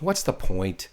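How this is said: It is asked in a flat, dismissive way. The asker is not really looking for an answer. The speaker calls it wrong. "if you say it like that, you're not really thinking about it"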